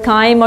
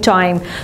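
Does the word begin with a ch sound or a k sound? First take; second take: k sound; ch sound. First: The word begins with a k sound. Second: The word begins with a ch sound. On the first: "sometimes we are pronouncing this word kaim" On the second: "or sometimes we are saying chime"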